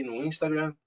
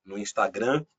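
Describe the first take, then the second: First: "Instagram" said with an English accent. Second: "Instagram" in a Brazilian Portuguese accent. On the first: Host listing his social networks, English accent slipping in. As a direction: slip into English pronunciation on "Instagram". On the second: Guest correcting himself on social networks, Brazilian accent. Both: Real, not acted. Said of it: "a gente começa a pegar sotaques".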